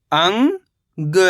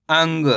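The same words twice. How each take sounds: First: अंग as long rising "ang", pause, "ga"; split syllables. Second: Said in the usual way. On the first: Shown as a demonstration. Teacher breaking down अंग for learners, split syllables. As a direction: stretch अंग into two separate syllables. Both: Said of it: "तो मिलके बन जाएगा".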